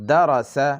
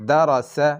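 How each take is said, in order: No difference in how they are said.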